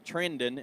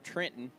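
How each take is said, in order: First: The second syllable starts with a d sound. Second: The second syllable starts with a t sound. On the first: The speaker calls it right. "It's it's pronounced Trendon" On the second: The speaker calls it wrong. "instead of Trenton"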